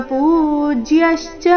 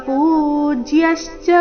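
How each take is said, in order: The two takes are said the same way.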